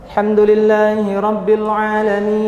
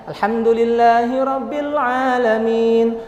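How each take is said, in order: The two takes are said the same way.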